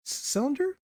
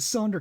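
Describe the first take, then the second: First: CYLINDER pitched high with a questioning rise; unsure question. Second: Said in the usual way. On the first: Real, not acted. Narrator groping for the right word, unsure question. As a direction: say "cylinder" as a doubtful, rising question.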